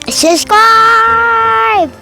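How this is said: It is said with real enthusiasm.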